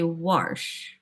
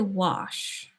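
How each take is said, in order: First: The word is said with an added R sound. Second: The word is said without an R sound. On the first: "they add R's to things" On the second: "they don't say wash"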